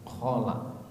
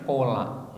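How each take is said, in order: First: The word begins with a rasping kh sound. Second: The word begins with a plain k sound. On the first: It means a toilet. The speaker calls it wrong. "Kholak itu W C" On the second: It means the sweet fasting-month dish. The speaker calls it right. "Padahal pinginnya damel kolak"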